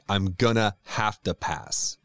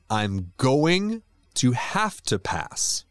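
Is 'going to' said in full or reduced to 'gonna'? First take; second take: reduced; full. First: 'Going to' is reduced to 'gonna'. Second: 'Going to' is pronounced in full.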